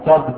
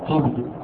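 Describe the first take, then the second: First: "كذب" as one syllable, kadhb; "كذب" pronounced kadhb; fatha, silent middle vowel. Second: "كذب" as one syllable, kidhb; short i after the kaf in "كذب", no vowel before the b; "كذب" pronounced kidhb; kasra on kaf. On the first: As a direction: open a after the kaf in "كذب", no vowel before the b. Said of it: "بفتح الكاف وسكون". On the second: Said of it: "كسر الكاف وسكون الباء". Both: Shown as a demonstration.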